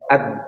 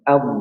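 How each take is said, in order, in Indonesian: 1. Konsonan akhirnya terdengar seperti d biasa. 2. Konsonan akhirnya bukan bunyi d biasa. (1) "jangan jangan ad, ad, salah ya" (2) "coba am"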